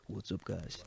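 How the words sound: It is said in a smooth radio-presenter voice.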